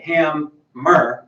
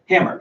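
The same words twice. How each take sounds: First: The syllables are split apart with a break. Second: The syllables run together as one unit. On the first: The speaker calls it wrong. "We don't say hammer" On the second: The speaker calls it right. "we say hammer. So it's one chunk"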